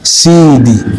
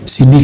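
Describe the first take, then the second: First: The word is said with strong pressed emphasis. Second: The word is said plainly without pressed emphasis. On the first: It is the Arabic title for a master. The speaker calls it right. "Sidi bacanya ada ada tekanannya" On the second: It means a compact disc. The speaker calls it wrong. "bukan C D"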